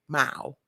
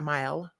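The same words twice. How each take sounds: First: The vowel sounds like 'oh', as in 'mow'. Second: The vowel sounds like 'eye', the general pronunciation. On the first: "mile, M O W" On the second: "not mile"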